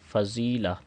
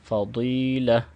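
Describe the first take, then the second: First: The middle consonant is a plain z. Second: The middle consonant is a thick, heavy d. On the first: The speaker calls it wrong. "Urdu की तरह पढ़ते हैं" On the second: The speaker calls it right. "दाद को यहाँ पे मोटा किया जाएगा"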